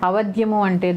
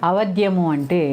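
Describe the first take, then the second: No difference in how they are said.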